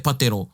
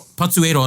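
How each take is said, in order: First: The words run together, dropping a vowel. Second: Both words are said separately with each vowel. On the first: The speaker calls it wrong. "not ho mai te patero" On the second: The speaker calls it right.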